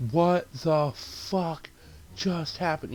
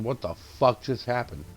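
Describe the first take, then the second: First: Drawn-out, very slow disbelief; stunned disbelief. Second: Said in the usual way. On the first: Retold or imitated. Viewer reacts to the shock death, stunned disbelief. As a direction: stretch each word, higher, dumbfounded. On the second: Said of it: "I literally out loud said".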